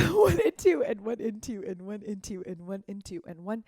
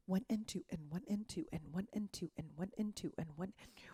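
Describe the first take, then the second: First: Laughing count. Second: Soft counting. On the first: Real, not acted. Teacher laughs after joking about needing breath, laughing count. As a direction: count through a laugh, louder. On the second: Shown as a demonstration. Dance teacher counting the shimmy for students, softly. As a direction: count the beats softly, almost under the breath.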